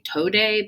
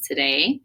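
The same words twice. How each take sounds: First: The first vowel is a long 'oh' sound. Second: The first vowel is a reduced 'uh' sound. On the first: "if it's an open syllable, so it should say today" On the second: "but it says today"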